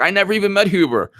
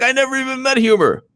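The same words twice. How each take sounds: First: Quick, higher mock denial; hammed-up innocent denial; mocking Mark Meadows. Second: Much higher, quick mock denial; squeaky hammed-up innocent denial; mocking Mark Meadows. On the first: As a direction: toss it off in a high mocking voice. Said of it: "Mark Meadows is like". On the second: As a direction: push the mock voice even higher. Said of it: "He's like".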